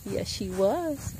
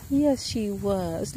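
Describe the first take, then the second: First: Slow, soft cooing. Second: Slow, cooing and higher; drawn-out coo to the goat. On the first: Baby talk about the goat. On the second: Repeated baby talk. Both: Real, not acted.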